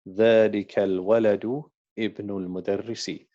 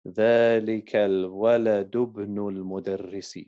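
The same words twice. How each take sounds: First: It stops before ibn, pronouncing its initial vowel. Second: It runs straight through, dropping ibn's initial vowel.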